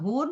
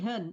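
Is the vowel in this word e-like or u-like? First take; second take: u-like; e-like. First: The vowel sounds like a plain u. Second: The vowel sounds like a short e. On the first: The speaker calls it wrong. "Bukan hun" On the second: The speaker calls it right. "tapi hen"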